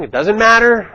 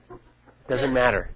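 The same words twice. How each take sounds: First: Louder, higher, pressing the point on matter; emphatic. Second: Softer and slow, letting matter settle; quiet repeat. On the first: Coaching listeners not to argue, emphatic insistence. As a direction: insist it doesn't matter, raising the voice. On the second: Coaching listeners not to argue, quiet slow repeat. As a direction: drop it down and slow it right off. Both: Shown as a demonstration. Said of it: "repeats phrase for emphasis".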